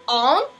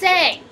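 First: The name is pronounced the way the film says it. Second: The name is pronounced the way the show says it. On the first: The speaker calls it wrong. "they were like, Aang, let's roll with it" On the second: The speaker calls it right. "bro, it's Aang"

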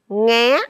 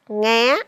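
First: The syllable is said on a high rising tone. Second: The syllable is said on a high rising tone.

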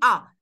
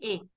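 First: The vowel sounds like an open 'ah'. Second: The vowel sounds like 'eh'. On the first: The speaker calls it right. "قولي اه، افتحي لها تمك" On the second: The speaker calls it wrong. "ما تقولي ايه"

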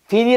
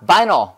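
First: The first vowel sounds like 'ee'. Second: The first vowel sounds like 'eye'. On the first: The speaker calls it wrong. "비닐 아니라" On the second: The speaker calls it right. "I로 발음해야죠"

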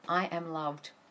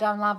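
First: It is said with heartfelt conviction. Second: It is said flatly, like a robot.

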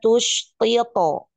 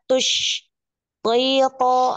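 First: The two words run together without pause. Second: There is a pause between the two words. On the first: The speaker calls it right. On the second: The speaker calls it wrong.

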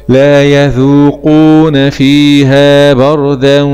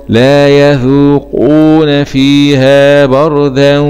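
No difference in how they are said.

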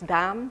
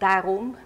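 First: The word is shortened to one syllable. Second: The word is said in full, two syllables. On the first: "it can be pronounced as daam" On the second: "the unreduced form daarom"

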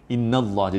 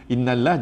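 First: The word is pronounced with a heavy, thick sound. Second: The word is pronounced with a light, thin sound. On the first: The speaker calls it right. "Innallah jadi berat" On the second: The speaker calls it wrong. "innallah jadi ringan"

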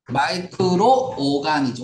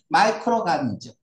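First: A separate o sound comes before ganism. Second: The r runs straight into ganism. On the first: The word is spelled with two o's. The speaker calls it right. "오가 두 개여야지 발음이 그렇게 되죠" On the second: The word is spelled with one o. The speaker calls it wrong. "만약에 오가 한 개면 마이크로가니즘"

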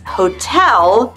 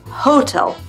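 First: The stress is on the second syllable. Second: The stress is on the first syllable. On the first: The speaker calls it right. "careful of your syllable stress. It's hotel" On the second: The speaker calls it wrong. "not hotel"

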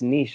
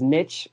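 First: The word rhymes with quiche. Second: The word does not rhyme with quiche. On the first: This is how people everywhere else say it. "everywhere else, everyone I talk to, it's niche" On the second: This is the Midwestern way to say it. "I'm in the Midwest is niche"

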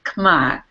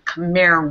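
First: The word is said the native Cambodian way. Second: The word is said the usual English way. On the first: "but they pronounce it Khmer" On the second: "We might say Khmer as in Khmer Rouge"

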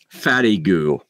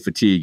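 First: It is said as three syllables, fatty goo. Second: It is said as two syllables, fa-teeg. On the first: The speaker calls it wrong. "so I just pronounced it like it looked" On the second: The speaker calls it right. "And then when I say fatigue"

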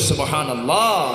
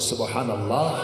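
First: The word is said loudly and strongly. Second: The word is said softly and quietly. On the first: "জোরে বলি" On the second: "একটু আসতে বলি"

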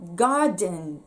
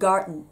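First: The d before the n is fully released. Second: The d before the n is swallowed. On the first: "garden ではなくて" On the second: "gar の後に、うんです"

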